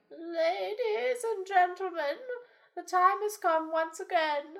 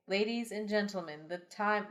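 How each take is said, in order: First: Put-on high, slow old elder voice; town elder voice. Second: Said in the usual way. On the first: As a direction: announce it as the village elder.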